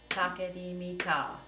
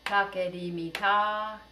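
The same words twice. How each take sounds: First: Said in the usual way. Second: "Take di mi ta" slow and even; slow rhythm. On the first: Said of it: "I'll say a rhythm and you say it back". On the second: Shown as a demonstration. Teacher calls the rhythm slowly for echoing. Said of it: "rhythms in a really slow tempo".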